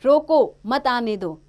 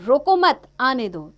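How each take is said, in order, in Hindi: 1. पहले शब्द के बाद विराम है। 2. दूसरे शब्द के बाद विराम है। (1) "इसका अलग अर्थ है कि रुक जाओ मत आने दो" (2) "उसको रोको मत आने दो"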